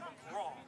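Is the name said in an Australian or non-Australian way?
Australian. The name is said the Australian way.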